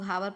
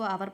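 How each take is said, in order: First: The word begins with an audible h sound. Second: The word begins directly with a vowel sound. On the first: The speaker calls it wrong. "बहुत लोग हावर पढ़ते हैं" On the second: The speaker calls it right. "इसको आवर पढ़ा जाता है"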